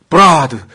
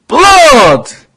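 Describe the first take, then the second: First: The L becomes an R-like sound, vowels added. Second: The word is said with a clear L sound. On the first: The speaker calls it wrong. "일본군은 브라드, 블러드 발음을 못해요. L 발음을 못해요" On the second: The speaker calls it right. "그날의 암호가 blood!"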